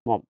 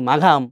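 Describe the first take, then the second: First: It is said 'mom' with no g sound. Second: It is said 'maagham' with a g sound. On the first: The speaker calls it right. "এটা উচ্চারণ কিন্তু কি মম" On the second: The speaker calls it wrong. "কেউ মাঘাম"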